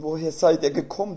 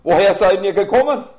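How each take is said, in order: First: The question is said plainly, without strong emphasis. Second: The question is said with strong, forceful emphasis.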